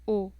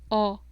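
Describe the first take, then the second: First: The O vowel is said closed. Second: The O vowel is said open. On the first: The speaker calls it wrong. "no decimos" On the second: The speaker calls it right. "decimos O"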